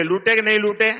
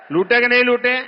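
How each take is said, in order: First: Said in the usual way. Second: नहीं pushed up high and louder; louder challenge. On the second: Real, not acted. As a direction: demand an answer from the crowd. (ज़ोर से चुनौती भरा सवाल)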